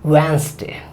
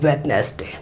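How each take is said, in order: First: The d is dropped, giving two syllables. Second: Every letter is sounded, including the d. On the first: The speaker calls it right. "डी जो क्या होता है वो silent होता है" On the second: The speaker calls it wrong. "उसको पूरा पढ़ते हैं वेडनेसडे, ऐसे नहीं"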